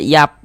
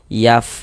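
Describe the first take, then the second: First: The word ends with a closed p sound. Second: The word ends with a breathy f sound. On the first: The speaker calls it wrong. "Jangan dibaca yap, begitu jangan" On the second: The speaker calls it right. "tapi dibaca yaf seperti itu"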